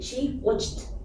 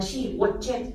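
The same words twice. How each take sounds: First: The ending is said as a short t sound. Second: The ending is said as an extra syllable. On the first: The speaker calls it right. "we should say" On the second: The speaker calls it wrong. "it doesn't uh"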